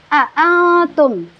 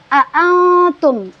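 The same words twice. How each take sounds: Both takes have the same delivery.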